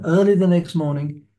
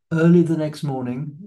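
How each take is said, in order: First: "Early" lifted high and louder, read with weight; "Early" punched higher and louder; stress on early. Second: Said in the usual way. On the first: Shown as a demonstration. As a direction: lean hard on "Early" in "Early the next morning". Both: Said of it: "That's always a good time to start".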